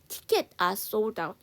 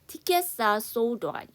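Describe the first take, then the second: First: The plural s sound is dropped from tickets. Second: The s sound is kept and linked to are. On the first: "복수형은 정확하게 발음을 하시지 않으셔도 돼요" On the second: "S 사운드를 살리실 거면 이쪽으로 연음해 주세요"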